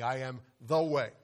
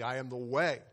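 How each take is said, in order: First: The word 'the' is stressed. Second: The word 'way' is stressed.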